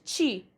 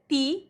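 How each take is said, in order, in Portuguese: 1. O t antes do i soa como ch. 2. O t antes do i é um t simples. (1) "em vez de" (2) "com o T"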